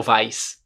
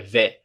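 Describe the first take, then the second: First: "vais" as vice, S sounded; Portuguese-style "vais"; wrong spelling reading. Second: "vais" as veh, no S; French "vais", one pure vowel; correct French vais. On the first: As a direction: misread "vais" as written, with diphthong and S. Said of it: "Não falo vais". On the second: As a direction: end "vais" on an open vowel. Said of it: "É vais". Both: Shown as a demonstration.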